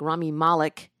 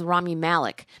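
First: The surname rhymes with Dalek. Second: The surname does not rhyme with Dalek. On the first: "like Rami Malek, as in Dalek" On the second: "originally I've always thought it was Rami Malek because he has said it that way"

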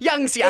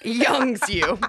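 First: The last word is reduced to 'ya'. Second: The last word is a full 'you'. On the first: The speaker calls it right. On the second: The speaker calls it wrong.

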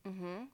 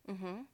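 No difference in how they are said.

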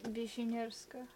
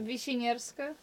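First: The name is said at normal, quieter volume. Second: The name is said loudly.

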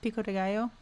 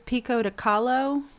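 First: The middle word starts with a G sound. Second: The middle word starts with a K sound. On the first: The speaker calls it right. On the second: The speaker calls it wrong.

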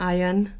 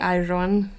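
First: The R is dropped, swallowed. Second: The R is clearly pronounced.

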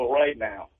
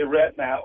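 First: The vowel in 'right' is a full glide, like 'rite'. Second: The vowel in 'right' is flat, like 'rat'. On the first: Do it whenever convenient. "right now means do it when you get around to it" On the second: Do it immediately. "we say right now over right now"

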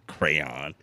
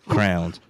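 First: The word sounds like 'crayon', two clear vowels. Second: The word sounds like 'crowns', one vowel sound. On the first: This is how most people say it. "you know, the world. Crayon" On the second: This is how the speaker personally says it. "I want to say crowns"

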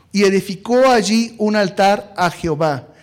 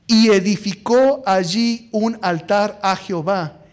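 The two takes are said the same way.

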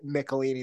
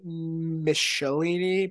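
First: The 'ch' is said as 'k'. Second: The 'ch' is said as 'sh'. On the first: "the ch becomes a k. So I say Michelinie" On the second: "Some people say Michelinie"

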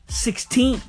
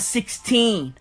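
First: The stress is on the second syllable. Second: The stress is on the first syllable.

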